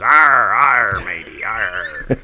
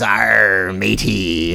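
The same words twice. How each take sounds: First: A playful pirate "arr"; a light movie-pirate growl; mock pirate accent. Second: Lightly growled Hollywood pirate "Arr, matey"; a hint of movie pirate; mock pirate accent. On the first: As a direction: ham up a Talk Like a Pirate Day pirate. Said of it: "Everybody kind of says". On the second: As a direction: toss off a stock pirate voice. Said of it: "the Hollywood pirates are always".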